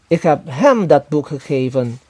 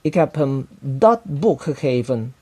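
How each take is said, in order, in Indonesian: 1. Kata hem mendapat tekanan utama. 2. Kata boek mendapat tekanan utama. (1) "kepada dia dan bukan kepada orang lain" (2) "buku itu dan bukan barang lainnya"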